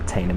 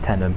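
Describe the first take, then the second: First: The first syllable rhymes with 'rain'. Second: The first syllable sounds like 'ten'. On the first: The speaker calls it wrong. "It's not Tainham" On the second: The speaker calls it right. "it's Tenham"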